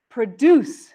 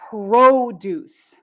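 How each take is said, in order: First: The stress is on the second syllable. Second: The stress is on the first syllable. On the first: It means to make or create something. "verbs often stress the second syllable" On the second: It names fresh fruits and vegetables. "Nouns often stress the first syllable"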